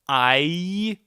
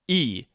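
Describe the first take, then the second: First: The vowel glides between two sounds. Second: The vowel is one steady, unchanging sound. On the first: The speaker calls it wrong. "It's not I, which are two sounds" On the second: The speaker calls it right. "it only has one sound"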